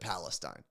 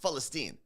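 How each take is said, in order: First: The word begins with a P sound. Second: The word begins with an F sound. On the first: This is what colonial Europe called it. The speaker calls it wrong. "the colonial Europe called it" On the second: This is how native people say it. The speaker calls it right. "We use an F sound"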